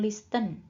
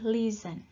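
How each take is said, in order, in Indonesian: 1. Bunyi t terdengar di tengah. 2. Tidak ada bunyi t yang terdengar di tengah. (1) "bukan listen" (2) "jadi ini T-nya tidak dibaca juga ya"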